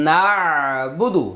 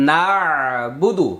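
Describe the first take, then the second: No difference in how they are said.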